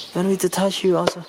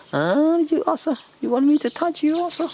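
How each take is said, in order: First: Said in the usual way. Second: Higher, quick cooing question. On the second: Real, not acted. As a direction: coo at the little one. Cooing at the animals.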